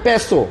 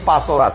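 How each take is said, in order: First: The first vowel sounds like 'e'. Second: The first vowel sounds like 'a'. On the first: The speaker calls it right. "এটা আসলে পেসো" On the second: The speaker calls it wrong. "আমরা বলতেছি পাসো"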